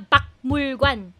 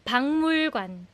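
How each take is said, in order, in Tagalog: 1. Ang unang pantig ay nagtatapos sa simpleng k na tunog. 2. Ang unang pantig ay nagtatapos sa nasal na ng na tunog. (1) "Hindi siya bakmul관" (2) "nag-nasalize ang aking pronunciation"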